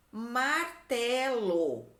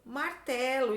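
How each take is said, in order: First: Very slow, stretched MAR-TE-LO; sounded out slowly. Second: Said in the usual way. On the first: Shown as a demonstration. Teacher giving pupils a word to write, sounded out slowly. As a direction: draw out each syllable of martelo.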